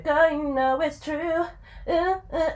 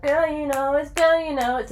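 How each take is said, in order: First: High, slow sung imitation of the song line "Girl, you know it's true". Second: Put-on "Girl, you know it's" sung high and cut off, then looped like a skipping tape; skipping record. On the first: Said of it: "and then it kind of went". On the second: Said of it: "the track skipped".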